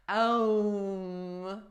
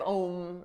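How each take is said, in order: First: The word is said as two syllables. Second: The word is said as one syllable. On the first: "they pronounce it with two syllables, Ah and Oh" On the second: "like rhyming with home"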